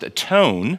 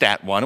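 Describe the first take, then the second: First: The word 'one' has the vowel of 'bone'. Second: The word 'one' has the vowel of 'sun'. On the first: The speaker calls it right. "It was pronounced atone, because that's the Old English pronunciation" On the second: The speaker calls it wrong. "it was not pronounced at one"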